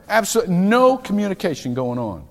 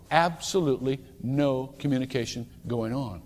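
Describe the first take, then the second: First: Leaning hard on "no" in "Absolutely no communication going on"; emphatic, louder. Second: Softer repeat. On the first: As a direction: punch "no" and push the line out. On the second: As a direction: let it sink in quietly. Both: Shown as a demonstration. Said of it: "same words said twice".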